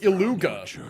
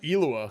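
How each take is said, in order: First: The name is said with a hard G sound. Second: The name is said without a G sound. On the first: This is how others insist it should be said. "everybody's like, no, it's Iluga" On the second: This is the habitual way the speaker says it. "I got used to saying it that way"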